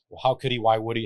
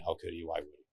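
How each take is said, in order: First: Raised, insistent asking; despairing widow asking why; pleading questions. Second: Softer, trailing away to a hush; storyteller echoing the widow's question, fading. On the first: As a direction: press the questions, a bit louder. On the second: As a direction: let the questions die out quietly. Narrator echoes the questions fading. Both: Retold or imitated.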